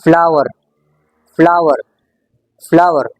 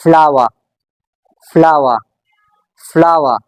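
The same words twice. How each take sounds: First: "फ्लावर" in American English, final r strongly pronounced; American rhotic "फ्लावर" with a falling tune; American accent. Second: "फ्लावर" in British English, final r silent; British non-rhotic "फ्लावर" with a falling tune; British accent. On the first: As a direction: say "फ्लावर" the American way, hitting the r at the end. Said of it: "और American English में". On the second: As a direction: say "फ्लावर" the British way, ending on an open "flah-wuh". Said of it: "British accent में". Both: Shown as a demonstration.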